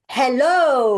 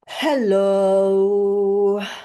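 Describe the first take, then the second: First: It is said faster, more normally. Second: It is said slowly, in a monotone.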